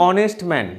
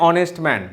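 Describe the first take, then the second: No difference in how they are said.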